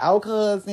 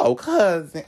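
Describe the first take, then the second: First: High, sing-song "Oh, cousin."; imitating the boy greeting his fake cousin; mock cousin greeting. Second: Higher, camp "Oh, cousin."; fake-sweet "Oh, cousin." as he'd never say it; imitating a phony cousin call; mock cousin greeting. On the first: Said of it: "was like". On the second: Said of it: "I'm not gonna be like".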